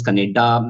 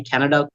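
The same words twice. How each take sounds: First: Punjabi-accented "Kannada". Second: Said in the usual way. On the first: Shown as a demonstration. Trainer showing mother-tongue influence, Punjabi-accented "Kannada". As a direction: bend "Kannada" into a Punjabi pronunciation. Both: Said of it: "mother tongue is Punjabi".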